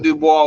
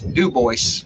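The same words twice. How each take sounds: First: The name is pronounced the French way. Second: The name is pronounced the English way. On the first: This is the original French form of the name. "the town with that name is not Dubois" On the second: This is how the locals say the town's name. "It's Dubois. ... didn't pronounce it French"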